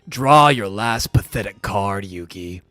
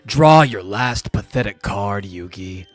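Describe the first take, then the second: First: The line is delivered with strong, heavy intensity. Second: The line is delivered with less, more restrained intensity.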